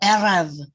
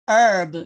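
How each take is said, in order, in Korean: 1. R은 바람 새는 듯한 히브리어식 소리예요. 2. R은 영어 R처럼 굴려서 내요. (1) "히브리어식으로는 R이 R, R, R 이렇게 해요" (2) "영어식으로 하면은 herb 뭐 이렇게 하겠죠"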